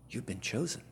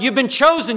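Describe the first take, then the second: First: Much softer, intimate and quiet; soft assurance. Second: High and loud, a triumphant call; proclaimed loudly. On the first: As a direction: tell each one gently. Softly assuring hearers. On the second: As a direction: cry out their calling. Shouted to hearers. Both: Acted.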